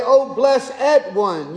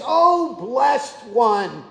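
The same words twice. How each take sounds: First: "O blessed one." drawn out in mock King James English, blessed as two syllables; a hint of old King James English, slowly; King James lingo. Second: Said in the usual way. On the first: Shown as a demonstration. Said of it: "you would do the accent a little differently". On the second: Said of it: "Another way to say it is".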